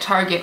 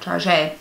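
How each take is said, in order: First: The word is pronounced the plain, ordinary way. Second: The word is pronounced the Midwestern way.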